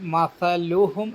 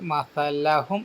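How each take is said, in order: First: The vowel after the L is u. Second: The vowel after the L is a. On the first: The speaker calls it right. "അവിടെ ലമ്മാണ് കൊടുക്കേണ്ടത്" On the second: The speaker calls it wrong. "ലാമിന് ഫതഹ് കൊടുത്തിട്ടാണ് ഉച്ചരിച്ചത്"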